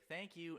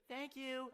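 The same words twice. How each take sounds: First: Said in the usual way. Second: Mock high copycat "thank you"; copycat kid. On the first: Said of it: "you'd be like". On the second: A hint of a mimicking kid at the pizza table. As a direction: echo it back like a mimicking kid. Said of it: "all your friends would be like".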